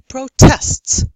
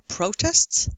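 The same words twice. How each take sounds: First: The stress is on the second syllable. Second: The stress is on the first syllable. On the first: It is a verb. "verbs often on the second" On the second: It is a noun. "Nouns often have stress on the first syllable"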